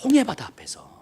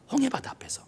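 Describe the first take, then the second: First: Said in the usual way. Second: 홍해바다 앞에서 breathed in a whisper. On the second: Shown as a demonstration. Preacher hushing the congregation at the Red Sea, whispered. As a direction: drop to a hushed whisper on 홍해바다. Repeats place, then whispers it.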